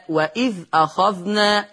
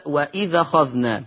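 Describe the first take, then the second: First: Said in the usual way. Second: وإذ أخذنا linked as "wa-idhakhadhna"; hamza dropped. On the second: Shown as a demonstration. (وإذ أخذنا موصولة بالنقل) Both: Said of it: "يقرأ بالنقل".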